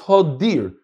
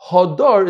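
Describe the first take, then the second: First: The second syllable has the vowel 'i'. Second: The second syllable has the vowel 'a'. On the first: The word points to a pen or barn. "I can read it with a chirik under the dalet" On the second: The word means beautiful. "Instead of hadar"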